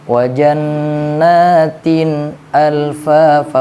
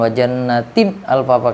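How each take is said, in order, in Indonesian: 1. Bunyi n jelas dan ditahan dengan halus. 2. Bunyi n terputus tiba-tiba, seperti terkejut. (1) "sifat bainiyahnya harus tampakkan juga" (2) "bukan ... kayak seorang orang yang terkejut"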